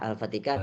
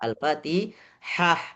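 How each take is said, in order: First: The middle consonant is a hard k sound. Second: The middle consonant is a breathy h sound. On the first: The speaker calls it wrong. "saya dengar Al-Fatikah" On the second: The speaker calls it right. "yang benar adalah Al-Fatihah"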